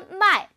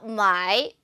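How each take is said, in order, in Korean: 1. 'sell' 단어의 성조예요. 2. 'buy' 단어의 성조예요. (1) "팔다 마이" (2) "사다 마이"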